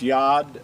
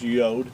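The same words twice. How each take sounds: First: The letter name has its ancient Hebrew vowel. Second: The letter name has its modern Hebrew vowel. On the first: "but it's Yod in ancient Hebrew" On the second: "in modern Hebrew, they refer to that as Yod"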